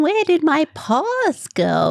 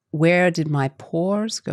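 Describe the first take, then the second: First: High, slow Australian 'paws' with an open vowel; Australian 'paws', higher and louder than the first take; Australian accent. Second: Slow Australian 'pores' without r, like 'paws'; slow Australian take, 'pores' sounding like 'paws'; Australian accent. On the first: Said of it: "you can't tell the difference between". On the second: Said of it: "if that was in my accent". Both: Shown as a demonstration.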